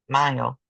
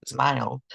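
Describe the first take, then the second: First: Said in the usual way. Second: "smiled" with a clear final D sound; past tense ending. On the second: Shown as a demonstration. Teacher to Spanish-speaking students, demonstrating a past tense ending. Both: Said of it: "just adding the letter D".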